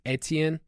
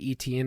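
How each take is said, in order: First: The name is pronounced the French way. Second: The name is pronounced the English way. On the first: This is how listeners expect it to be said. "instead of like Etienne" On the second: This is how the hosts usually say it. "when we say Etienne"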